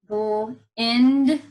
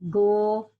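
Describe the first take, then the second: First: The vowel is the short i sound. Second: The vowel is the long i sound.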